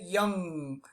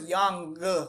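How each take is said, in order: First: The word ends without a separate hard g. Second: A separate hard g is released after the word. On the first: The speaker calls it right. "we say young" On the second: The speaker calls it wrong. "we don't say young g, g. No"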